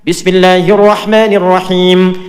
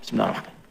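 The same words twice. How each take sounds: First: It is said aloud, audibly. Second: It is said silently, under the breath.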